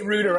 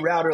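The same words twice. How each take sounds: First: It is said with a British pronunciation. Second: It is said with an American pronunciation. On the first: This is how the other person says it. "You say router" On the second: This is how the speaker says it. "I say router"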